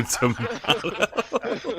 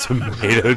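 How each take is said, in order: First: Tomato drawn out slowly through laughter; laughing tomato. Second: Tomato dengan "meɪ" seperti Amerika; tomato said "to-MAY-to". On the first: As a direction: stretch "tomato" long while cracking up. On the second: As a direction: say Tomato with a long "may" sound. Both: Pretend. Repeats tomato joke laughing.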